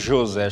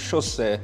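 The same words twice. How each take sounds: First: The first consonant is a plain zh sound. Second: The first consonant is a hissy sh sound. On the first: "Eles não chamam" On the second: "chamam José"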